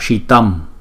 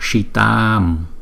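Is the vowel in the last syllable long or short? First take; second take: short; long. First: The last vowel is held for one short beat. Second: The last vowel is held for two long beats. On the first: The speaker calls it wrong. "chúng ta đừng đọc là shitam" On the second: The speaker calls it right. "chữ A có dấu gạch ngang là hai nhịp, cho nên chúng ta phải đọc là shitam"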